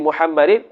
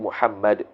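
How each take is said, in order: First: The word ends with an in sound. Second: The word ends with a bare d sound. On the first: The word is read with its tanwin. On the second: The reader stops on the word.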